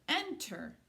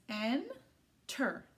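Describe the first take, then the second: First: Said in the usual way. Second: "en-ter" slowly, with a long gap between syllables. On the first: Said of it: "That word is enter". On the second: Shown as a demonstration. Teacher breaking a word up for children, split apart. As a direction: break "en-ter" into two separate parts. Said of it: "break it up into syllables".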